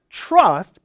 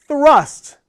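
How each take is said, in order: First: "trust" with a t near ch; wrong version "trust". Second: "Thrust" higher and louder, clear th; th with tongue out. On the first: Teacher shows the t sound. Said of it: "trust ... like a C H". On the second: Teacher contrasts thrust and trust. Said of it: "has the tongue out". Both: Shown as a demonstration.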